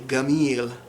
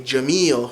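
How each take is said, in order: First: The word is said with a hard G sound. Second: The word is said with a J sound. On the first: This is the Egyptian Arabic form. "they would say gamil" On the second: This is the Modern Standard Arabic form. "You'd say jameel for beautiful"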